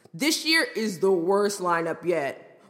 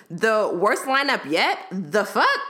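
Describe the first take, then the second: First: Slow lightly voiced frat bro. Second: Slow, mocking disbelief with rising tune; incredulous. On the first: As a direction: drag it out like a smug dude-bro. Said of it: "Him, in a frat bro voice". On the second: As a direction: throw his words back at him. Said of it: "how dare you disrespect the queen?".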